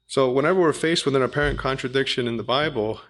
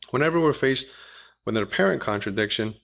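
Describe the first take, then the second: First: Said in the usual way. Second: Apparent leaned on with extra weight; stress on apparent. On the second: Shown as a demonstration. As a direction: press the word apparent a little harder. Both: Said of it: "I emphasize the w-, word apparent".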